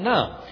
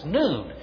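First: The vowel is a short uh sound. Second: The vowel is a long oo sound. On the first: This sounds like the word for a religious sister. The speaker calls it wrong. "rather than Nun" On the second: This follows the Hebrew letter name. The speaker calls it right. "which is how I prefer to pronounce it"

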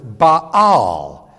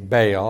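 First: The name is pronounced the Hebrew way. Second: The name is pronounced the English way. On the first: "the Hebrew word is Baal" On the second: "in English, we usually say Baal"

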